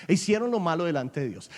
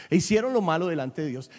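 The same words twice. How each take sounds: The two takes are said the same way.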